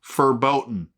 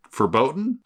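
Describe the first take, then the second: First: Verboten. said firmly with a falling tune; settled verboten. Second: Verboten? with a rising tune, testing the word; questioning verboten. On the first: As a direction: land the word Verboten. as the final answer. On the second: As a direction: ask Verboten? as if checking the punchline landed. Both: Shown as a demonstration. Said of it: "repeated punchline".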